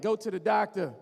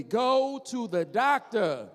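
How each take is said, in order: First: Said in the usual way. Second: Slow, drawn out, each word spaced; slow chant for the crowd to repeat; slow call-and-response. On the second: Shown as a demonstration. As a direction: lead the crowd slowly. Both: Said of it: "Say it with me".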